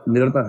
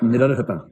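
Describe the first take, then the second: First: The middle 'rh' sound is left out. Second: The middle 'rh' sound is clearly pronounced. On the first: The speaker calls it wrong. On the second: The speaker calls it right.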